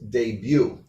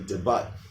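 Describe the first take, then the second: First: The word ends in a vowel, with no T. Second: The word ends with a clear T sound. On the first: The speaker calls it right. "it's not one of the ones that's pronounced" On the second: The speaker calls it wrong. "A lot of students mess up and say debut"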